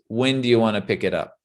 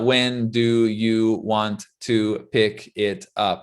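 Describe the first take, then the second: First: It is said quickly, the words run together. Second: It is said slowly, each word kept separate. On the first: The speaker calls it right. "Very quickly" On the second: The speaker calls it wrong. "It's not"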